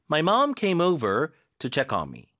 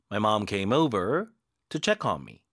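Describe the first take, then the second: First: Very slow, "mom" leaned on; stress on mom. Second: Very slow, "check" leaned on; stress on check. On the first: Teacher reading aloud for students to repeat. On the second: Teacher's second reading, weight on "check". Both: Shown as a demonstration. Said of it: "한번 잘 따라 읽기".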